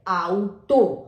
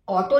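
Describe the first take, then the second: First: The first vowel glides from 'a' to 'oo'. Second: The first vowel is a plain 'aw' sound. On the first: The speaker calls it right. "क्योंकि ए और यू आउ आपका शब्द बना है" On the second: The speaker calls it wrong. "ऑटो नहीं बोलेंगे इसे"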